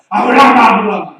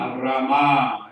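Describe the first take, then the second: First: The name is called hurriedly, with urgency. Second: The name is called in a calm, ordinary way.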